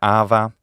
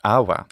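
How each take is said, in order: First: The middle consonant is an Italian-style v sound. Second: The middle consonant is a w-like semivowel. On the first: "like modern Italian" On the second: "more of a semivowel"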